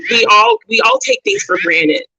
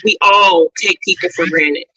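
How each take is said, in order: First: Jumps much higher, loud, stress on all; we all take things for granted said in a sudden very high voice with all stressed; high-pitched restatement. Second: We all take people for granted, with all said firmly and loud; emphatic aside. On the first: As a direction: squeak it up high for emphasis. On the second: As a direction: stress on all, fairly loud. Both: Shown as a demonstration. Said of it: "don't get me wrong".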